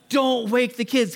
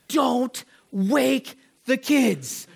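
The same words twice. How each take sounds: First: Said in the usual way. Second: Put-on "Don't wake the kids" very slowly, pausing between words; emphatic warning. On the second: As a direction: stretch each word of "Don't wake the kids" as a dire warning. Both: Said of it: "the worst conceivable possibility".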